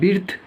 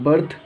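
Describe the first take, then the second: First: The vowel is a short i sound. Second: The vowel is an er sound. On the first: The speaker calls it wrong. "अगर हम लोग ये rule नहीं पता होता तो इसको हम लोग बिर्थ" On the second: The speaker calls it right. "इसको हम लोग बिल्कुल सही पढ़ेंगे, अर्थात बर्थ"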